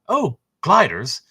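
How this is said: It is spoken with a British accent. The speaker calls it wrong.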